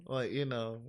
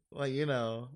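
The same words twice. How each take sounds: The two takes are said the same way.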